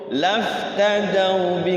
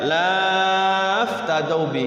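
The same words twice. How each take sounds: First: The vowel before 'bi' is short. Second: The vowel before 'bi' is drawn out long. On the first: The speaker calls it right. "Tidak dibaca pan panjang" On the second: The speaker calls it wrong. "enggak boleh dibaca"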